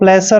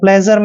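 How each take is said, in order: First: The middle consonant is a hissing s sound. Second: The middle consonant is a buzzing zh sound. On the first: The speaker calls it wrong. "इसको प्लेसर नहीं पढ़ना है" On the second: The speaker calls it right. "आपने प्लेजर पढ़ना है"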